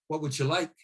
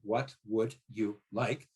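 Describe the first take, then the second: First: The words run together quickly with reduced vowels. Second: Each word is said separately with full vowels. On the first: "when I put it together very quickly ... You've added the schwa" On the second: "separate, ... There's no schwa"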